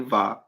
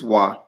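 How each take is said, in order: First: It begins with a v sound. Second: It begins with a w sound. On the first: This is the modern way of saying it. The speaker calls it wrong. "The modern will say Va" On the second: This is the original way of saying it. The speaker calls it right. "but it's Wa"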